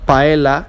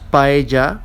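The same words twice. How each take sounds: First: The double L is said as an L sound. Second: The double L is said as a Y sound. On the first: The speaker calls it wrong. "not paella" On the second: The speaker calls it right. "it's pronounced paella"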